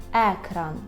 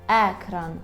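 Both takes have the same delivery.

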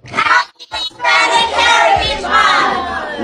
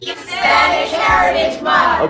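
First: It is said with real enthusiasm. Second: It is said without much conviction.

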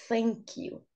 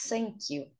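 First: It begins with a th sound, tongue between teeth. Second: It begins with an s-like sound instead of th. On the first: The speaker calls it right. "ao invés de falar thank you" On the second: The speaker calls it wrong. "fala thank you. Como se fosse a pia do banheiro"

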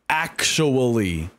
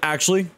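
First: Every syllable is clearly and fully pronounced. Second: The syllables are mumbled and run together. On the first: The speaker calls it right. "That's how it should be pronounced" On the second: The speaker calls it wrong. "But I don't do that. It's like actually"

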